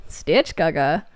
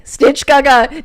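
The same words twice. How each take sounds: First: Said in the usual way. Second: "Stitch Gaga" called out loud and high; loud teasing nickname. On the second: Pretend. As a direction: yell the nickname to tease her. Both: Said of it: "saying Gaga".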